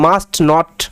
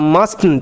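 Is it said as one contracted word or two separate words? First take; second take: separate; contracted. First: It is said as two separate full words. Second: It is said as one contracted word. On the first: "মাস্ট নট বলতে পারেন, no problem" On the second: "এটা contracted form"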